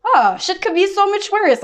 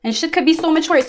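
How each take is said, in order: First: Much higher and slow, airy and dismissive; mock breezy reassurance. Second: Said in the usual way. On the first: Reader quotes a friend shrugging off someone's drama, high and slow. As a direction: float the line up high, drawn out.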